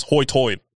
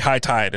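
First: "hoy-toid" with oy replacing long i; island brogue pronunciation. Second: Said in the usual way. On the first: Shown as a demonstration. Showing how islanders say high tide, "hoy-toid" in brogue. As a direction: round both vowels into oy in "hoy-toid". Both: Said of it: "that's how they say high tide".

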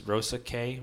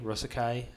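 First: Rosaceae tried slowly as "ROSE-a-kay"; unsure pronunciation. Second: Rosaceae retried as "ROSE-a-kai"; unsure pronunciation. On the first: Reading the family name from Wikipedia, unsure, Rosaceae ending in "kay". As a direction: end Rosaceae on a questioning "kay". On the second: Guessing at the family name, unsure, Rosaceae ending in "kai". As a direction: end Rosaceae on "kai", rhyming with "sky". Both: Real, not acted. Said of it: "I don't know".

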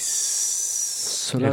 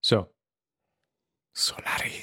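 First: Slow, breathy dramatic drawl; grand tragic wailing. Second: Hushed, dramatic whisper. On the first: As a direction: stretch the title out like a lament. Echoing the title dramatically. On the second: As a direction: breathe the title like a movie trailer. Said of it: "Tim's already in his dramatic voice". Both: Acted.

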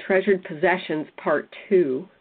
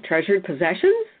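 First: Said in the usual way. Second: "Treasured Possessions" rising at the end, as if asking; "Treasured Possessions" with questioning upward tune. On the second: Shown as a demonstration. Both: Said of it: "she said it like a question".

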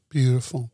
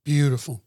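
No difference in how they are said.

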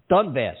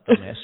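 First: "Donbass" said right at last, Don-bass; correct name, Donbass. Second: "dumbass" as a slip for Donbass, said with a laugh; wrong word, dumbass. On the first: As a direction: land "Donbass" clearly after the slip. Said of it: "What the hell is the name of that town?". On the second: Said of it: "not dumb". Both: Real, not acted.

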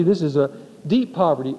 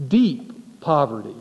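First: "deep" punched, falling tune; stress on deep. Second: Slow, weighty "deep poverty"; quoting the word. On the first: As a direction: hit the word "deep" hard and let it fall. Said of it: "This was no ordinary poverty". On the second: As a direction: lean slowly on "deep poverty" as a quoted term. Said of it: "it uses the word". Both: Shown as a demonstration.

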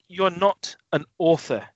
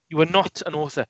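First: Slow disbelief. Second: "are" hit hard, falling finish; stress on ARE. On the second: Told to the actor: "are" stressed, falling. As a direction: lean on "are" in mock disbelief. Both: Retold or imitated. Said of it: "You think".

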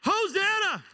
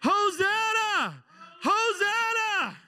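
First: High, loud hosanna; excited high hosanna; joyful praise. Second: Slow, high, loud hosanna; long shouted hosanna; drawn-out praise shout. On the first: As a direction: shout it out in praise. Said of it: "I'm gonna say". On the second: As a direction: cry it out full-throated to heaven. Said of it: "You know what Hosanna means". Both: Pretend.

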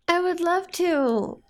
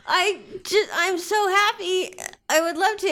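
First: Tender. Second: Tearfully happy and grateful; happy tears. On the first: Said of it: "repeats her line". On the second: [name] voiced happy tears. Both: Acted.

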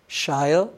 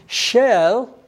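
First: Shel said as "shile", with a long i; anglicized shel. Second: Shel with a short e, drawn out slowly; Hebrew shel. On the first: Preacher offering another form of the word, shel as "shile". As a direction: stretch shel's vowel to an eye sound. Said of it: "if you will". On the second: Preacher teaching a Hebrew word to listeners, shel drawn out. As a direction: say shel slowly, rhyming with shell. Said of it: "In Hebrew, the word". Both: Shown as a demonstration.

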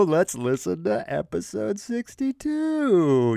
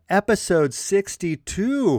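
First: Slow, teasing "episode sixty-two" like a grand reveal; mock drawn-out announcement. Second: Said in the usual way. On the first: Podcast host teasing listeners with the episode number, slow mock announcement. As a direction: drag it out as a running joke. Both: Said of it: "I'm just gonna keep doing that".

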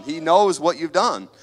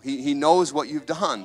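First: Knows pressed louder, slower, deliberate; stress on knows. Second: Said in the usual way. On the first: Shown as a demonstration. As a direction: lean hard into He knows, slowly. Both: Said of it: "repeated line, second pushed".

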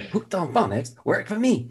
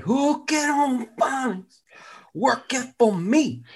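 First: Higher-pitched ad slogan; commercial testimonial imitation. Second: High, slow, garbled falsetto; failed slogan reader. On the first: Quoting the phonics commercial, lightly imitated testimonial. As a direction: recite it like the ad kid. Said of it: "that commercial was great". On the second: Pretend. Person who couldn't read the slogan, slow high struggle. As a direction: stretch and mangle the slogan. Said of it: "imagine the person didn't, couldn't do it".

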